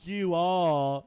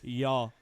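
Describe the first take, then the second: First: It is said as two full separate words. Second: It is squeezed into one short syllable. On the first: The speaker calls it wrong. "that's so long" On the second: The speaker calls it right. "could just say"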